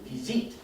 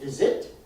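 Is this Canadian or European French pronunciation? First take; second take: European; Canadian. First: It is said with a European French accent. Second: It is said with a Canadian French accent. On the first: "In France, they would say visite" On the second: "Canada, they would say visit"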